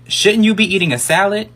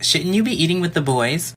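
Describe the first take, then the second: First: Pointed, higher sassy retort; sassy comeback. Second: A hint of a condescending teacher; mock teacher jab. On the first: Retold or imitated. Boy roasting his mean teacher, sassy comeback. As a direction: fire the insult back with attitude. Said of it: "I was like". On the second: Teacher mocking a boy at lunch, lightly snide. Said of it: "she's like".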